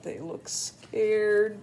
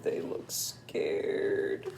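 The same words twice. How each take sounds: First: Said in the usual way. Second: Slow, low, breathy whisper; low hushed scared whisper. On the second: Shown as a demonstration. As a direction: whisper it as if afraid.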